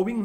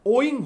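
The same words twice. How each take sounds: First: Owing said with a w sound, oh-wing; owing with a clear w glide, oh-wing; wrong pronunciation. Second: Owing said as oy-ing, no w sound; Owing said smoothly as oy-ing; correct pronunciation. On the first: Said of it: "वो owing नहीं होता है". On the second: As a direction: glide straight from o to ing in Owing. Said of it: "क्या होता है? Owing होता है". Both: Shown as a demonstration.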